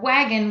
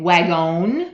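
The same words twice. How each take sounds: First: The second vowel is a weak uh sound. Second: The second vowel is a full o sound. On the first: The speaker calls it right. "we say uh" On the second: The speaker calls it wrong. "we don't say wagon. We don't say a o"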